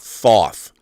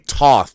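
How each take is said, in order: First: The name begins with a th sound. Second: The name begins with a plain t sound. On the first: The speaker calls it wrong. "not Thoth" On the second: The speaker calls it right. "And I say Toth"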